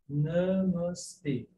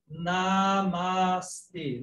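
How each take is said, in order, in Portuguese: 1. A primeira vogal é breve e fechada. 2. A primeira vogal é aberta. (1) "Tem fechado" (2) "Não Namastê"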